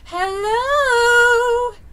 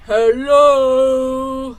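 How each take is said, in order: First: It is said in a high falsetto. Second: It is said in a deep baritone.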